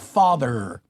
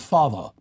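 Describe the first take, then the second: First: The final R sound is clearly pronounced. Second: The final R sound is dropped. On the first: This is the American way. "retention of the R" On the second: This is the British way. "rather than"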